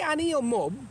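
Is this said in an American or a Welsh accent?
Welsh. It is said in a Welsh accent.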